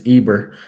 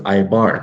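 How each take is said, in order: First: The name is said with an English pronunciation. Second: The name is said with a Hebrew pronunciation. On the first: "in the English, it's Eber" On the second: "In the Hebrew, it's Ibar"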